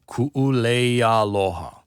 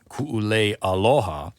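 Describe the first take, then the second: First: The words run together without any break. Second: A glottal break is added before aloha. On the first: The speaker calls it right. "You just keep the word going and you run it into the next one" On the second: The speaker calls it wrong. "it's not"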